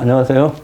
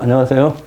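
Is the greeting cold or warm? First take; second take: cold; cold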